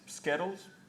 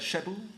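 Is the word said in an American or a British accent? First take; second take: American; British. First: The word is said in an American accent. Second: The word is said in a British accent.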